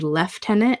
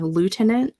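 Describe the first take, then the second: First: It is said in the British way. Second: It is said in the American way.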